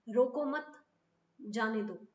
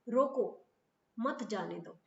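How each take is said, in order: First: The pause comes after the word mat. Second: The pause comes after the word roko.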